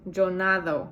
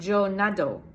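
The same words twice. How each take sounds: First: Nado with a soft th-like d; soft Spanish d. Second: Nado with a hard English d; wrong hard d in nado. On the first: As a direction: let the d in nado slide like "th". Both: Shown as a demonstration. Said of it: "It is not yo nado".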